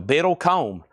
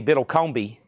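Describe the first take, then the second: First: "Biddlecombe" ending like comb; "Biddlecombe" in three syllables, ending kohm; name said as BIDDLE-comb. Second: "Biddlecombe" with a bee on the end; "Biddlecombe" in four syllables, final ee sounded; alternative name, BIDDLE-comb-bee. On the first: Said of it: "Yours looks easy". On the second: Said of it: "unless that's supposed to be". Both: Shown as a demonstration.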